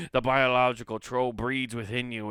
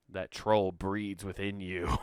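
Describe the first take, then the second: First: Loud, hammed-up Scottish voice; comic Scottish storyteller; mock Scottish accent. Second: Said in the usual way. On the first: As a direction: announce the troll like a stage Scot. Scottish troll voice put on again.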